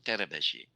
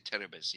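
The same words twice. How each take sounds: First: The name is said with Hungarian pronunciation. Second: The name is said with plain English pronunciation. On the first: "the Hungarian way of pronouncing it ... exactly pronounced" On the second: "you ju- just can say"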